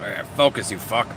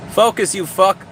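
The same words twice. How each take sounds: First: Put-on lower, softer Canadian accent with an eh; mock Canadian telling the camera off; light Canadian accent curse. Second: Said in the usual way. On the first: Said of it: "with a Canadian accent". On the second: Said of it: "You have to say it with".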